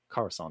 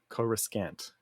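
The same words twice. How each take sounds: First: It is said as the film's name for the planet. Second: It is said as the ordinary English word. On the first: This is the official name of the planet. "is now the official name" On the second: This is the ordinary English word meaning glittering. "the actual pronunciation of this word in English"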